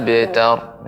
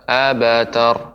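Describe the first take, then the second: First: The b bounces straight into t, no vowel. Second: A full vowel is heard between b and t. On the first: The speaker calls it right. "dipantulkan dengan cara abtar" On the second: The speaker calls it wrong. "jangan sampai menjadi huruf ba. Abatar"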